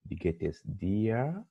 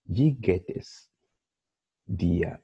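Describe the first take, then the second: First: Soft model question. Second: Slow model question. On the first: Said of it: "Dir is informal". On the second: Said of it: "somebody greets you in German". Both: Shown as a demonstration.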